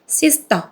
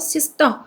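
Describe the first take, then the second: First: The s and t sounds are loose, not tense. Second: The s and t sounds are tense and hard. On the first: The speaker calls it wrong. "sister가 아니고" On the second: The speaker calls it right. "C 쌍쇼 발음하십니다... T는 T인데 이거 쌍디귿 발음하십니다"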